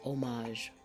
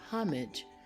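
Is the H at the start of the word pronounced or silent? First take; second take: silent; pronounced. First: The word begins with no H sound. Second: The word begins with an audible H sound. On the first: "without the H sound" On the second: "pronounced with an H sound"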